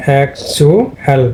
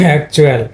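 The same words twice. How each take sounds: First: অ্যাকচুয়াল split slowly as "ak-chu-el"; divided into syllables. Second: Said in the usual way. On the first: Shown as a demonstration. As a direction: break অ্যাকচুয়াল into three separate syllables. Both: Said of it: "divide হয়েছে".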